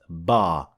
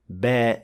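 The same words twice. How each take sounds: First: The vowel is full and heavy. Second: The vowel is thin and light. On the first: The speaker calls it wrong. "not ba" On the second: The speaker calls it right. "alif that is empty mouth and we say ba"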